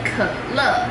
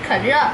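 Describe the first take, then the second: First: The second syllable begins with an L sound. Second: The second syllable begins with an R sound. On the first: The speaker calls it right. "在台湾可乐就是Coca-Cola 是叫做可乐" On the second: The speaker calls it wrong. "因为我个人发音不标准，我都会故意说可热"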